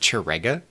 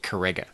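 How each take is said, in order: First: The name begins with a soft ch sound. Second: The name begins with a hard k sound.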